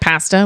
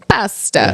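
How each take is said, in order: First: It is said with an American accent. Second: It is said with an Italian accent.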